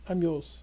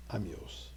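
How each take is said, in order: First: Said in the usual way. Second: Soft, low, almost spoken inward; hushed surrender. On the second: Shown as a demonstration. Rabbi offering himself to God, hushed and soft. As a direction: quietly give yourself over. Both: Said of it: "By simply saying to God".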